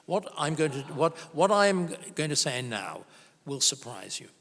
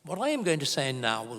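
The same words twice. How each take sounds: First: Said in the usual way. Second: Mock German accent on a stern warning. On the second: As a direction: lightly put on a German professor's accent. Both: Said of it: "I'll stop doing a German accent".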